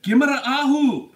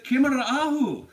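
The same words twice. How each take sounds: First: "Gimara Ahu" burst out high and loud, a Gaelic greeting; spoken Gaelic greeting. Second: "Kimara Ahu" said again, high and a bit loud; repeated Gaelic greeting. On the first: Walking into the meeting, greeting the Brit, loud and proud. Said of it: "and I walk in and I said". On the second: Answering the Brit's question, a bit less loud. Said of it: "So what was that you said". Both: Retold or imitated.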